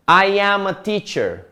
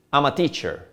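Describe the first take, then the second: First: "I am" in two full words, higher; careful, separate "I am a teacher"; uncontracted. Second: Quick, easy "I'm"; contraction. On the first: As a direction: spell out "I am" without contracting. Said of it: "It's not saying". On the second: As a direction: run "I'm a teacher" together. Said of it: "it sounds better, it sounds". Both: Shown as a demonstration.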